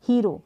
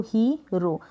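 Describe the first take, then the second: First: Said in the usual way. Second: हीरो in two parts, ही, then रो; long "hee" in हीरो, then a separate "ro"; syllable by syllable. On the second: Shown as a demonstration. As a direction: break हीरो after its first syllable. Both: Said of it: "इसको break किया".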